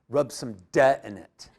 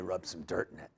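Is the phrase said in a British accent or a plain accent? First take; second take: British; plain. First: It is said in an imitated British accent. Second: It is said in the speaker's ordinary accent.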